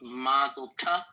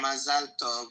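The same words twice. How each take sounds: First: "Mazel tov?" slow, rising on "tov"; unsure what "Mazel tov" means, so it's asked slow and rising; puzzled question. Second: "Mazel tov." falling, stressed on "mazel"; repeating the phrase back, falling, as a statement; plain statement. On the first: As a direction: ask "Mazel tov?" slowly, lifting "tov". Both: Shown as a demonstration. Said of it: "What's mazel tov?".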